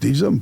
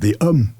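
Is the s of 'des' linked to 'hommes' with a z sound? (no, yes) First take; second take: yes; no. First: Said with a z sound linking the words. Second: Said without a z sound linking the words. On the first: The speaker calls it right. "Donc des hommes, point final" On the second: The speaker calls it wrong. "on ne peut pas dire des hommes. C'est impossible"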